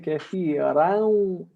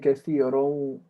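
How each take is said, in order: First: The final vowel is open and unrounded, like a. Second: The final vowel is rounded, like u. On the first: The speaker calls it right. "You should say kathiran" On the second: The speaker calls it wrong. "You're saying kathirun"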